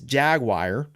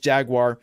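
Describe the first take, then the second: First: It is said with a Pittsburgh pronunciation. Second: It is said with the usual non-Pittsburgh pronunciation. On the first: "in Pittsburgh we would pronounce this" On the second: "the rest of the world is"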